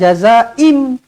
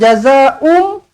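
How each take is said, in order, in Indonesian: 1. Vokal terakhir sebelum m adalah i. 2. Vokal terakhir sebelum m adalah u. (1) "bukan jazaa'im" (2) "bukan jazaa'um"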